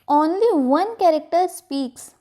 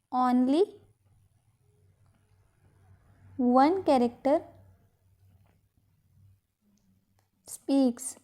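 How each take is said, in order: First: Said in the usual way. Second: Subdued word-by-word dictation. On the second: Shown as a demonstration. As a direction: piece by piece, with long pauses. Dictates the same phrase in pieces.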